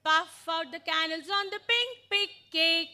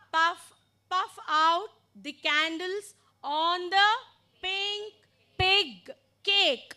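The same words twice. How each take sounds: First: Brisk, run together without gaps; faster demonstration. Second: Slowly, with gaps between phrases; slow demonstration. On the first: Teacher shows how the sentence really goes, faster. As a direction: chant it through at full pace. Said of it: "But it goes fast". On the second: Teacher models the sentence for learners, slowly. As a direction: say it slowly for learners, word groups spaced out. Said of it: "so I told it slowly once". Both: Shown as a demonstration.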